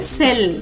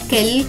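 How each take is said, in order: First: The word begins with an s sound. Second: The word begins with a k sound. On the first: The speaker calls it right. "ఈ పదం యొక్క ఉచ్చారణ అవుతుంది సెల్" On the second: The speaker calls it wrong. "కెల్ కాదు"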